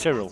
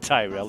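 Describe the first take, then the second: First: The name is said in a British way. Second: The name is said in a non-British way. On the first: The speaker calls it right. "Tyrrell if you're British" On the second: The speaker calls it wrong. "It's not Tyrell"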